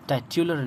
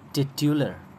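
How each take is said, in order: First: The first vowel sounds like 'eye'. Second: The first vowel sounds like 'it'. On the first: The speaker calls it wrong. "टाइट्युलर नहीं पढ़ेंगे" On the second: The speaker calls it right. "बल्कि टिट्युलर, ये है इसका pronunciation"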